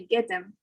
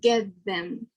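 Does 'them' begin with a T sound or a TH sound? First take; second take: T sound; TH sound. First: The TH of 'them' becomes a T sound. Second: The TH of 'them' stays a TH sound. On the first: "the T H sound in them will change to become more like a T of get" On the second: "instead of get them"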